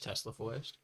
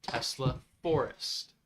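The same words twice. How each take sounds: First: "Tesla forest" run together quickly; quickly garbled words. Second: "Tesla forest" at half speed, words apart; slow, careful repeat. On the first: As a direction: let "Tesla forest" blur in a quick question. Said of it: "I have a speech impediment that only comes out when I say things quickly". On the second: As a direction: spell out "Tesla forest" word by word. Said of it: "One more time". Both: Real, not acted.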